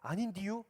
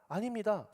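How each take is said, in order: First: It is said in a rural regional dialect. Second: It is said in standard Seoul-style speech. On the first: The speaker gives away a provincial origin. "해야 되는데 아닌디유? 이래 버린 거야" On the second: The speaker sounds like a city person. "서울 사람들처럼 이렇게 수도권에 있는 사람들처럼"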